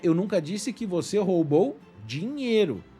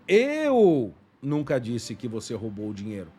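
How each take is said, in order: First: The stress is on the word dinheiro. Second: The stress is on the word eu.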